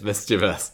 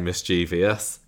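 First: It is said with three syllables, ending '-us'. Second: It is said with four syllables, ending '-ee-us'. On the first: The speaker calls it right. "but it's mischievous" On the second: The speaker calls it wrong. "I think lots of people say mischievous"

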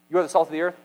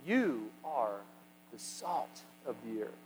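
First: The sentence is spoken quickly. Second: The sentence is spoken slowly. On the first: The speaker calls it wrong. "How would he have said" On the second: The speaker calls it right. "No, he would have said"

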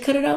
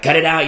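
First: It is said softly, like a puzzled plea. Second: It is said sharply, like an angry scolding. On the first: The speaker is asking why the listener keeps doing it. The speaker calls it right. "I say cut it out like, why?" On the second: The listener is being rebuked for daring to do it. The speaker calls it wrong. "I don't say it like, cut it out, you know, how dare you"

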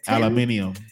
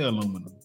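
First: The word has five syllables, ending in -nium. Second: The word has four syllables, ending in -num. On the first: This is how they say it. "What do they say?" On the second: This is how we say it, not them. "They don't say aluminum"

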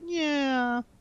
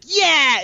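First: It is said in a sad tone. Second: It is said in a cheerful tone.

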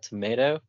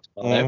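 First: Said with an American pronunciation of tomato. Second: Said with a British or Australian pronunciation of tomato. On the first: "as you would call it" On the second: "Australians and as British would say tomato"

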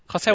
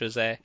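First: The name is said with a Spanish pronunciation. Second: The name is said with a Portuguese pronunciation. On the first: "Jose would be the Spanish version" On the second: "Jose is the Portuguese version, Brazilian version"

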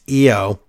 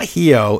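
First: The word begins without any H sound. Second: The word begins with an audible H sound. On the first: The speaker calls it right. "H is mute in Spanish" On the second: The speaker calls it wrong. "It's not Hiho"

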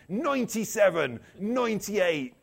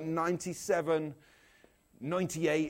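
First: It is said in a West Country English accent. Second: It is said in the speaker's ordinary accent.

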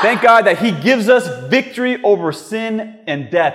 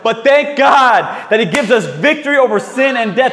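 First: It is said calmly, without much excitement. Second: It is said with lively excitement.

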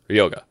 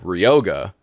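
First: Every syllable is flat, Japanese style. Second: One syllable is stressed, English style.

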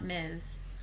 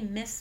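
First: The word does not sound like 'Miss'. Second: The word sounds like 'Miss'. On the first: "not Ms" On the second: "you always say Ms. Marvel"

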